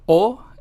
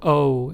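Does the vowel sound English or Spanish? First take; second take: Spanish; English. First: The vowel is said the Spanish way. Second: The vowel is said the English way. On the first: "O in Spanish" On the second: "O in English"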